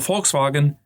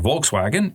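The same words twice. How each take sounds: First: The word is said with German sounds. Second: The word is said with English sounds.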